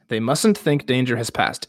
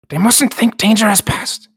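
First: It is read in the speaker's ordinary voice. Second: It is read in a put-on creature voice.

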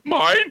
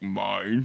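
First: The word is said in a higher voice. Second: The word is said in a lower voice.

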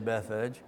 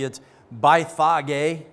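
First: The name is pronounced in a smoother anglicized form. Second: The name is pronounced in its full literal form. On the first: The speaker calls it right. "so we'll just say Bethphage" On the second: The speaker calls it wrong. "if you want to say it literally, it's Bethphage, but it doesn't sound so good"

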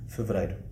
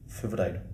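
The two takes are said the same way.

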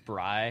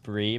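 First: The vowel sounds like 'eye'. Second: The vowel sounds like 'ee'. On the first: The speaker calls it wrong. "most people think it's Bry" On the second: The speaker calls it right. "it's pronounced Bree"

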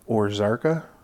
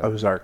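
First: The first syllable has an r sound. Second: The first syllable has no r sound. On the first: The speaker calls it wrong. "I'm going to say this wrong" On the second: The speaker calls it right. "There you go"

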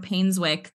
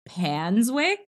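First: The first syllable sounds like 'pain'. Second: The first syllable sounds like 'pan'.

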